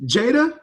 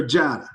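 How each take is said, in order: First: "Jada" with first syllable rhyming with day; first name option. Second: "Jada" with first syllable as in spa; second name option. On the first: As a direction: say "Jada" as JAY-da, with a long A. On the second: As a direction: say "Jada" as JAH-da, with an open A. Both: Shown as a demonstration. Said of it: "is it Jada or Jada".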